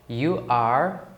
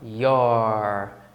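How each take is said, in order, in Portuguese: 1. Diz-se como duas palavras separadas e completas. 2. Diz-se como uma sílaba contraída.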